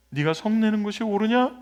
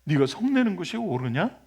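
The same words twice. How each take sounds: First: 옳으냐 lifted higher with a rising end; God's challenge, raised and rising on 옳으냐; pointed question. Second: Said in the usual way. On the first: Shown as a demonstration. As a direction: press the question home with 옳으냐.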